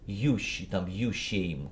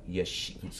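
First: The first word is stressed and said fully. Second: The first word is quick, slurred and reduced. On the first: The speaker calls it wrong. "если выделить и сказать «я» вот так" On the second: The speaker calls it right. "если быстро сказать, смазано, вот так"

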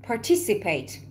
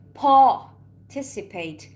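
First: It is said in an American accent. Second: It is said in a British accent.

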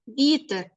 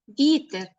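Both takes have the same delivery.

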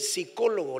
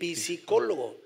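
First: The word begins with a silent P. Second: The word begins with a sounded P. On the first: The speaker calls it right. "la P no se pronuncia" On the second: The speaker calls it wrong. "no se dice psicólogo"

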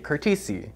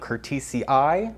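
First: The final double i is sounded as one vowel. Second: The final double i is sounded as two vowels. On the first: This is how keen collectors of the plant say it. "hardcore Hoya collectors say curtisii" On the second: This follows the usual rule for plant Latin. "you double pronounce the double I in plant Latin"

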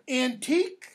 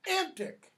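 First: It ends with a long 'eek' sound. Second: It ends with a short 'ick' sound. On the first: Something is old. "Antique, pronounced that way, has a specific meaning" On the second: Something is old or crazed and frantic. "Antic can have both the old meaning of antique, but it can also have what meaning?"

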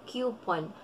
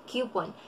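No difference in how they are said.

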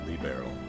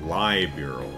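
First: The name ends with an 'o' sound. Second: The name ends with an 'al' sound. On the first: The speaker calls it right. "Makes sense if it's L I" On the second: The speaker calls it wrong. "I'd been going liberal"

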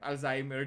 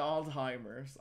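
First: It is said with a Filipino English accent. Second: It is said with an American English accent. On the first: "Talk to me in your sexy Filipino accent" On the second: "Sa kanila"

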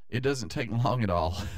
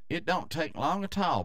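First: It is said in a neutral accent. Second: It is said in a Southern American accent.

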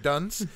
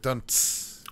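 First: It is said as one ordinary word. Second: It is said like a drum-hit sound effect. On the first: The speaker calls it wrong. "it's not one word. It's not like dunce" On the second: The speaker calls it right. "It's the sound like you make at a comedy club when a joke hits"

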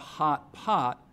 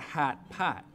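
First: The vowel is the usual open back 'o' sound. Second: The vowel is fronted, sounding like 'hat'. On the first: "it's not a hot pot" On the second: "So in Chicago, ... it's a hat pat"

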